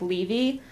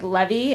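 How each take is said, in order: First: "Levy" said as LEV-ee, short e stressed first; her own pronunciation of the name. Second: "Levy" said as LEE-vee, long ee stressed first; his pronunciation of the name. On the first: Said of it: "I pronounce it like". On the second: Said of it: "he pronounces our last name like". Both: Shown as a demonstration.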